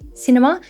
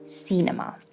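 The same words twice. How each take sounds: First: The first vowel is a short 'i' sound. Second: The first vowel is not a short 'i' sound. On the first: The speaker calls it right. "We have I" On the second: The speaker calls it wrong. "instead of cinema"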